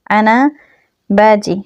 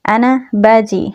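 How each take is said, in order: First: Said in the usual way. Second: Slow careful Arabic. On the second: Shown as a demonstration. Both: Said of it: "এরকমভাবে বলবো যে".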